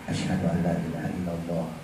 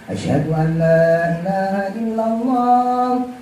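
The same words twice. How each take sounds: First: It is said quietly and softly. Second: It is said loudly and openly.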